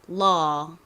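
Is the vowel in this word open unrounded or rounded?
open unrounded. The vowel is open and unrounded, like 'uh'. "미국식으로는 law, 어 발음처럼"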